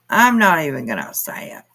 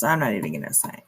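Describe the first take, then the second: First: Firm and louder; louder emphatic repeat. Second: Quick low throwaway; fast muttered aside. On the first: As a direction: say it out with more force. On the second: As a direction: rush it under the breath. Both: Real, not acted.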